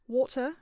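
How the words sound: It is said in a British accent. "I'm going to do British"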